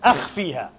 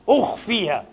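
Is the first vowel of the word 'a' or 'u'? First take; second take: a; u. First: The word begins with an open 'a' vowel. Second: The word begins with a rounded 'u' vowel. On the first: The verb would come from the three-letter root meaning to appear. The speaker calls it wrong. "إذا من خفى لازم تقول قراءة ماذا؟" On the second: The verb comes from the four-letter form meaning to hide. The speaker calls it right. "إيش قال؟"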